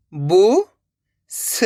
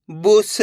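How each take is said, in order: First: Each syllable sounded separately, pauses between; letter by letter. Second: Said in the usual way. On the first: Shown as a demonstration. Teacher sounds out a word for beginners, letter by letter. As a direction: break the word into its letters, slowly. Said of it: "एक ही अक्षर का उच्चारण". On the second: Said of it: "तो मिलके बन जाएगा".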